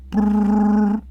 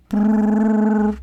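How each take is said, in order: Both takes have the same delivery.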